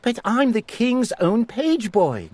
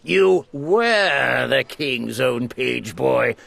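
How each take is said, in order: First: Put-on high, startled boy's protest; gasping in disbelief. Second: Snapping back. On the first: Eric refusing to believe the command, gasping in dismay. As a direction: protest in shock. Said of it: "gasped Eric". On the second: Lord Droon correcting the page boy, snapping coldly. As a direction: stress were, coldly. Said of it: "snapped Lord Droon". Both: A narrator's reading.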